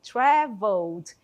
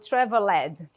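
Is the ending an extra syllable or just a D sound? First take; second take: just D; extra syllable. First: The ending is just a D sound. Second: The ending is said as an extra syllable. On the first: The speaker calls it right. "é assim que eu vou pronunciar esse verbo" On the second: The speaker calls it wrong. "eu não falo traveled, fica até feio"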